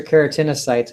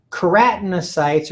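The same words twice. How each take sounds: First: Keratinocytes with the stress on TIN, kera-TIN-o-sites; alternative pronunciation. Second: Keratinocytes with the stress on the second syllable, ke-RAT; first pronunciation variant. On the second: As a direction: say keratinocytes as kuh-RAT-no-sites. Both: Shown as a demonstration. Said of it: "however you wanna dis-, uh, pronounce that".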